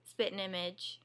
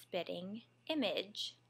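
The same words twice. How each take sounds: First: "spitting image" said Southern style, "spittin'" with the t softened. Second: "spitting image" slowly, each t crisp, careful and correct; best teacher voice. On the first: Teacher contrasting her Southern "spitting image" with careful speech. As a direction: say "spitting image" the way she naturally does. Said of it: "so I wouldn't say". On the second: Former teacher showing her careful classroom pronunciation, slow and precise. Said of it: "in my very best teacher voice". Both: Shown as a demonstration.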